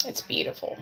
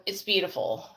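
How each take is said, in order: First: A breathy hush of awe; soft unvoiced "It's beautiful"; whispered. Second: Said in the usual way. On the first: Real, not acted. Repeats the praise, breathless hush.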